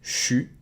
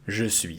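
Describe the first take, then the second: First: It is squeezed into one syllable, 'chu'. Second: Both words are said in full. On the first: It sounds informal, as in North America. "get rid of the I and it becomes chu" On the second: It sounds proper and formal. "this is the proper way of pronouncing it"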